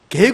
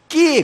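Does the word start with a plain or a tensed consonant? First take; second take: plain; tensed. First: It starts with a plain, lax g sound. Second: It starts with a tense, hard kk sound. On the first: "우리 여기 대구에서는 그걸 뭐라고 발음합니까? 게 그러죠" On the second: "부산에 가면 어떻게 발음하는 줄 알아요? 깨 그럽니다"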